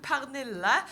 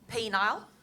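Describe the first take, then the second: First: The name is said in its own Scandinavian way. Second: The name is said like the English word penile. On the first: The speaker calls it right. "I'm Pernille" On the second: The speaker calls it wrong. "it gets mispronounced"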